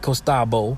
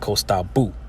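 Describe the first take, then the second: First: The word ends with an 'o' vowel. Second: The word ends with a 'u' vowel. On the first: "when you write costabo" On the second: "you're actually going to pronounce it costabu"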